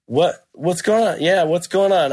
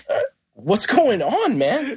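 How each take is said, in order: First: Higher, baffled echo of the question; mildly raised, puzzled comeback; retold puzzled reply. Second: High, drawn-out retold challenge; slow, high-pitched mock alarm; mock confrontational greeting. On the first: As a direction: act out being caught off guard. Own puzzled reply to the confrontation. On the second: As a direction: imitate an agitated guy demanding answers.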